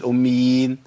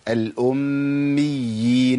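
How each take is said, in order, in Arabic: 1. الياء مفردة وقصيرة. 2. الياء مشددة ومطوّلة. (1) "ما بقولش الأميين" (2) "يبقى لابد من بيان الايه؟"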